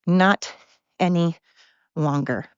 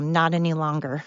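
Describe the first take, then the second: First: NOT hit hard, pause before ANY and before LONGER; slow, separated words falling to a low "longer"; emphatic word by word. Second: Said in the usual way. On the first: Real, not acted. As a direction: punch "Not", then let "any" and "longer" drop, each alone. Repeats it word by word.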